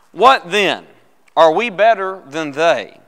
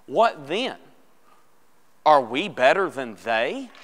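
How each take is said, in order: First: Loud, measured public Bible reading, falling at the end; scripture reading. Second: "Are we better than they" drawn out, rising on "they"; slow emphatic reading. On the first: Real, not acted. Pastor begins reading Romans to the class, loud and deliberate. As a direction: read it out firmly and slowly to the room. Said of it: "Let's begin reading it".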